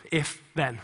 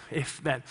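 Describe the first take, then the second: No difference in how they are said.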